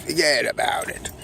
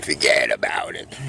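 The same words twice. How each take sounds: First: Higher, punchy wiseguy take; high Brooklyn catchphrase. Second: Low gruff wiseguy voice; Brooklyn catchphrase. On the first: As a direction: toss it off high like a Brooklyn guy. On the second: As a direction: growl it like a Brooklyn tough guy. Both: Acted. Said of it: "I'm gonna say".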